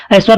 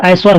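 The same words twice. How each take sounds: First: ऐश्वर said as "eshvar"; e-vowel ऐश्वर. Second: ऐश्वर said as "aishvar"; ai-vowel ऐश्वर. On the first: Teacher showing the error, e opening ऐश्वर. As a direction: start ऐश्वर on pure ए. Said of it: "नहीं होता". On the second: Teacher correcting, ai opening ऐश्वर. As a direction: open the first vowel of ऐश्वर to ऐ. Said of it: "ऐश्वर होता है". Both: Shown as a demonstration.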